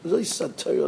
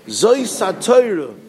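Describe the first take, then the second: First: Said in the usual way. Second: Zois HaTorah drawn out slowly and loudly; slow emphatic verse. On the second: Shown as a demonstration. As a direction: Zois HaTorah, each word stretched and weighted. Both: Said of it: "the Pasuk again says".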